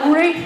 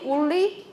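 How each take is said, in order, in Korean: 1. 가운데 자음은 짧게 한 번 튀기는 소리예요. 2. 가운데 자음은 길게 늘인 L 소리예요. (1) "우리 이렇게 발음하세요" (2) "L로 한번 그거 발음해 보세요"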